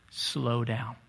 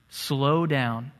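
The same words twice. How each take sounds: First: Dropped low and soft, much softer; soft key words. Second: Said in the usual way. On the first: Shown as a demonstration. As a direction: let it fall softly, like calming someone. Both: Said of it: "the key word".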